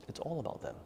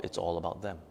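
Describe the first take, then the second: First: "It's all about them" repeated much softer and higher; softer echo. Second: Said in the usual way. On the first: Shown as a demonstration. Teacher echoing to her meditation class, much softer and higher. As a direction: let "It's all about them" fall away to a near hush. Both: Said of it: "repeated more softly".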